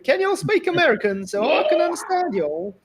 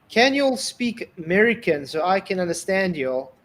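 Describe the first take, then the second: First: It is said in an American country accent. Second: It is said in the speaker's plain voice.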